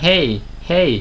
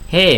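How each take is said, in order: First: The word ends with a y-like glide. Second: The word ends without a y-like glide.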